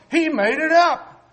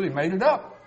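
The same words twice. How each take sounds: First: "He made it up" pitched high and loud; real indignant insistence on "He made it up", falling at the end; emphatic accusation. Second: Said in the usual way. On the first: Real, not acted. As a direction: hammer "He made it up" in a much higher, louder voice.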